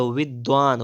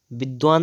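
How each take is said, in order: First: विद्वान starting with v; rounded v opening विद्वान; correct pronunciation. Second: विद्वान starting with b; closed-lip b opening विद्वान; wrong pronunciation. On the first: Teacher correcting, विद्वान with v. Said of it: "क्या होता है". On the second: Teacher showing the error, विद्वान with b. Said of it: "विद्वान नहीं होता है". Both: Shown as a demonstration.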